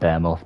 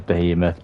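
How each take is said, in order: First: The word has a variant, non-standard pronunciation. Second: The word has its standard dictionary pronunciation. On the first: This copies how a TV commentator said it. "I call it Bearmoth" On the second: This is how the word is meant to be said. "I know it's meant to be pronounced uh"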